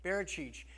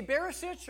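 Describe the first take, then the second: First: "Barachich" with ch sounds, bar-a-chich; second pronunciation try. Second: "Barisic" said with a plain s sound, bar-ih-sick; "Barisic" with a hard s, not ch; first pronunciation try. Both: Shown as a demonstration. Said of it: "Do you say Barisic or".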